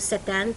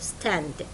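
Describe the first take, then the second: First: An extra vowel sound breaks the st cluster. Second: The st cluster is said without any vowel. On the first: The speaker calls it wrong. "ما اقول stand" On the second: The speaker calls it right. "لا اقول stand"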